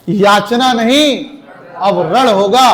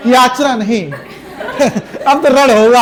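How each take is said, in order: First: "याचना नहीं" slow and firm, "अब रण होगा" rising as a challenge; defiant declaiming. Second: "याचना नहीं" giggled, then "अब तो रण होगा" chuckled; laughing through it. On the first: Teacher showing the right heroic reading to the class, defiant. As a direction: proclaim war with no smile. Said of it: "क्रोधित होकर बोलो भी उसे". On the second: Teacher demonstrating wrong reading to students, laughing through it. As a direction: say the battle cry while laughing, the wrong way. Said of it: "हंस हंस के कह रहे हो". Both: Shown as a demonstration.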